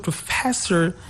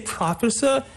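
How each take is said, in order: First: "professor" with FES stressed; second-syllable stress. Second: "professor" with PRO wrongly stressed; wrong first-syllable stress. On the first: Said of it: "is stressed on the second syllable". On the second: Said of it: "you put the stress on". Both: Shown as a demonstration.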